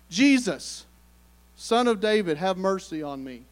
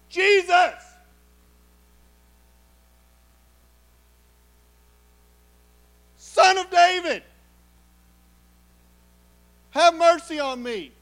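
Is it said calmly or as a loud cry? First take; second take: calmly; loud cry. First: It is said calmly, in a reading tone. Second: It is cried out loudly and urgently.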